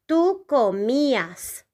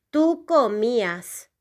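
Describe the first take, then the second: First: Slow model pronunciation. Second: Said in the usual way. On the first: Shown as a demonstration. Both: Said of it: "the conjugation will be".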